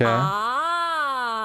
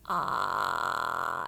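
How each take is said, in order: First: The voice sounds full and smooth. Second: The voice sounds creaky and croaky. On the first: "it's like that fuller voice" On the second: "it's like a creaky, croaky sound"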